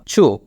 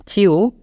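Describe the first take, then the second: First: চু with a single "oo" vowel, no glide; চু as one pure vowel after CH; CHEW as "choo". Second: চিউ with an "ee" gliding into "oo"; চিউ with a clear glide before the final "oo"; CHEW as "chiu". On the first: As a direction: say চু as plain "choo". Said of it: "যে কোনো একটা আপনি উচ্চারণ". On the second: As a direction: say চিউ as "chee-oo". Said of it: "আপনি চিউ উচ্চারণটা করেন". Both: Shown as a demonstration.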